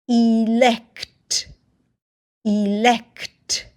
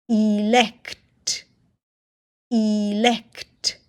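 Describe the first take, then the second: Both takes have the same delivery.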